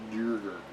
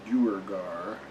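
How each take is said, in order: First: Duergar squeezed into two beats, falling; trial pronunciation. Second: Duergar ending in a full "gar"; trial pronunciation. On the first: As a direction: say Duergar as DURE-ger. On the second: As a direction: say Duergar as DOO-er-gar, tentatively rising. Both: Shown as a demonstration. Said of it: "How do you pronounce Duergar?".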